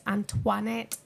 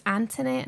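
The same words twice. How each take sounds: First: "Antoinette" with a "twa" in the middle; French-style Antoinette. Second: "Antoinette" with a plain "tuh" in the middle, no w sound; mispronounced Antoinette. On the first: Shown as a demonstration. Commentator correcting people on her middle name, French-style pronunciation. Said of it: "It's not Antoinette". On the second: Retold or imitated. Commentator quoting how people get her middle name wrong, mispronounced. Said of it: "Some people say it's Antoinette".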